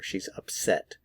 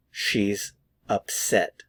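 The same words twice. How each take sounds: First: Said in the usual way. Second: "She's ... upset", slow with a pause after "She's"; word by word. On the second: Shown as a demonstration. Teacher models "She's upset" for learners, slow and word by word. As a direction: separate "She's" and "upset" slowly and clearly. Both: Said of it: "Notice the pronunciation".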